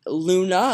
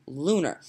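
First: "Luna" ending in an open "ah"; clear final A. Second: "lunar" ending in a clear "r"; sounded final R. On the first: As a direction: sound the A at the end of "Luna". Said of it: "like, L U N A". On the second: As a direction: finish "lunar" on an American R. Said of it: "different thing than L U N A R". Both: Shown as a demonstration.

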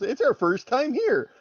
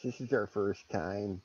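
First: High, loud self-mocking repeat; embarrassed realization. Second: Said in the usual way. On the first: Player repeating the character's silly apology, mock incredulous. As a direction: blurt it back, hearing how silly it sounds. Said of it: "He realizes how stupid that sentence was".

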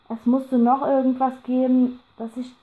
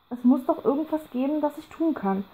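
First: Bemüht ruhig, doch die Unruhe klingt durch; vergeblich gelassen. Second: Higher, pressing plea with the calm slipping; failing to sound calm. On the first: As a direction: try to sound calm and fail. (angestrengt gelassen) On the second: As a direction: let the desperation break through. (höher und drängender, die Gelassenheit bricht) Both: A narrator's reading. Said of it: "versuchte vergeblich gelassen zu klingen".

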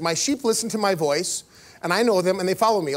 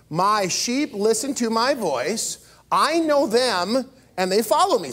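First: Said in the usual way. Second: "My sheep listen to my voice" read slow and measured; read together slowly. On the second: Shown as a demonstration. Pastor leads a slow group reading of the verse. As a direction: lead the room through each word slowly. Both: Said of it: "let's read this together".

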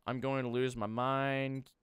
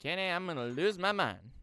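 First: Exasperated, held just above usual pitch; mounting frustration. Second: Higher, louder cry of frustration; exasperated complaint. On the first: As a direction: frustration still held in check. Frustrated by the mess, first take. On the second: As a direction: call out your frustration to a friend. Repeats the complaint to co-player. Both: Real, not acted.

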